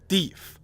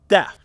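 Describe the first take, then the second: First: The vowel is long, rhyming with leaf. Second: The vowel is short, rhyming with chef. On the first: This is the older pronunciation. "Until the late nineteenth century, Americans said deef" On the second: This is the newer pronunciation. "the trendy British pronunciation of deaf"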